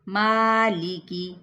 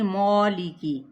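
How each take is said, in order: First: The first vowel is open and thin, like ah. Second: The first vowel is rounded, like aw. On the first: The speaker calls it right. "दोनों ही बारीक अदा होंगे" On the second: The speaker calls it wrong. "अब ये नहीं मौलिकी"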